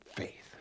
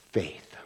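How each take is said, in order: First: Whispered. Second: Hushed, lower. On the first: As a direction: whisper Faith with no voice. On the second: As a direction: say faith low and soft, trailing off. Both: Shown as a demonstration.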